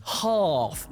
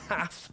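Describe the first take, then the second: First: HALF drawn out with a long "ah"; southern long vowel. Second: HALF with a short "a" as in cat; a softer, quick "haff" for half, mimicking the northern way; northern short vowel. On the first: Acted. Southerner correcting a Northerner in a pub, long "ah" in half. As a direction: correct them with a slow, higher "hahf" for half. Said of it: "it's pronounced half". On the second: Southerner quoting the Northerner's way, short "a" in half. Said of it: "not half".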